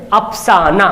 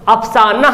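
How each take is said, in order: No difference in how they are said.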